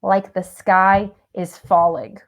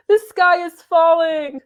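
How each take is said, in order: First: Said in the usual way. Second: High, gasping the sky is falling; fluttering damsel cry. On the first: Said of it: "acting the damsel". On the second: Pretend. Acting the damsel.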